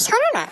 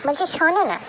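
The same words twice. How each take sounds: First: Much higher, pleading repeat; high, nagging little plea; insistent coaxing. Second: Said in the usual way. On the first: Acted. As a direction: whine it higher to get his attention. Repeats, insisting on being heard.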